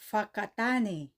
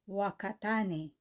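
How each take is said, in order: First: The word begins with an F sound. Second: The word begins with a W sound. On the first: The speaker calls it right. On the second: The speaker calls it wrong. "ang tawag ng iba"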